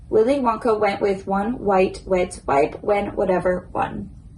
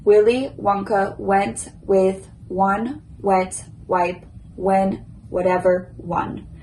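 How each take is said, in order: First: The sentence is said at a medium pace. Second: The sentence is said at a slow pace. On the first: "now a medium pace" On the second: "First slow"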